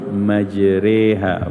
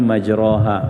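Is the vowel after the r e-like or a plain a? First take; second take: e-like; plain a. First: The vowel after r leans toward e. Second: The vowel after r is an open a. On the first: "satu riwayat qiraah menyebut majriha, bukan majraha" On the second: "sebutan dalam bahasa Arabnya majraha"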